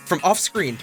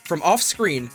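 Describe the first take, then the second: No difference in how they are said.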